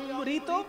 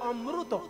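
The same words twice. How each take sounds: First: The r is followed by an 'ri' vowel. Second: The r is followed by an 'ru' vowel. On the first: This is the Bengali way of saying it. "আমরা যদি বলি অমৃত" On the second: This is the Odia and South Indian way of saying it. "ওরা বলেন অমৃত"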